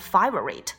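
The vowel is said in an Australian way.

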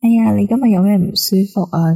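It is said in a soft, gentle tone.

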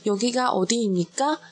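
The pitch rises at the end. It sounds clearly like a question. "因为语尾上扬了嘛，一听就知道是问句"

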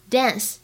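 It is said with an American accent. "这是美式的发音"

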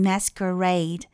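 The first vowel is a short American 'a'. "美音masquerade"

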